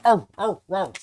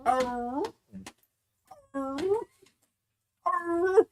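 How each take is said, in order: First: Short loud choppy barks; wrong hound bark. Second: High drawn-out baying, arr stretched long; right hound bawl. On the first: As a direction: bark three quick times, the wrong way. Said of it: "and it's not a". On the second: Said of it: "It's an". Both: Shown as a demonstration.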